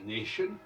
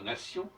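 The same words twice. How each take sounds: First: It is said with English pronunciation. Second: It is said with French pronunciation. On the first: "en anglais, ça devient nation" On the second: "le T se prononce ce, comme dans nation"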